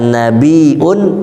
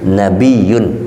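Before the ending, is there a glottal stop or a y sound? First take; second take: glottal stop; y sound. First: A glottal stop comes before the ending. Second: A y sound comes before the ending. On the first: One who brings or receives news. "Kalau nabiun berarti pakai hamzah" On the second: One of high rank, or who raises others' rank. "kalau nabiyun berarti nggak pakai hamzah"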